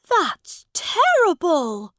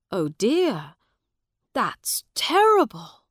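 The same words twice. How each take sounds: First: Put-on high, loud, slow young prince voice; the prince appalled by the story; lofty child dismay; shocked boy king. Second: Kindly sympathy. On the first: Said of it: "said Edward". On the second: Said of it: "said Miles kindly". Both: A narrator's reading.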